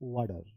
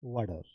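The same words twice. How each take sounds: No difference in how they are said.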